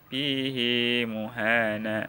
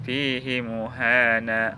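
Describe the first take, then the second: First: The vowel after the h is held long. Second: The vowel after the h is kept short. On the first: "hak kinayahnya dibaca panjang" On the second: "hak kinayahnya dibaca pendek"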